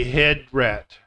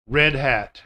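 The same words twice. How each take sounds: First: "head rat" said as the mistake; swapped R and H. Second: "red hat" with a clear R and H; correct red hat. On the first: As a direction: imitate the learner's "head rat". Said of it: "they'll say". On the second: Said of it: "but they'll say head rat". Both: Shown as a demonstration.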